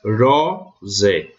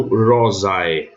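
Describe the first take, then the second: First: "rosé" ending in a single open é; Roman pronunciation. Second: "rosae" as ro-za-e, both final vowels heard; slow "rosae" with a and e split; the wrong Roman reading, "rosae" ending a-e; ae sounded separately. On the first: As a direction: say "rosé" in two parts, ro-zé. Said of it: "aqui eu vou ler". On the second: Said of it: "não rosae". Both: Shown as a demonstration.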